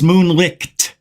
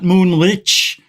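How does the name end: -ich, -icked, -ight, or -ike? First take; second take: -icked; -ich. First: The name ends in a 'licked' sound. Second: The name ends in a soft 'ich' sound. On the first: The speaker calls it right. "It's moonlicked" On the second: The speaker calls it wrong. "Not moonlich"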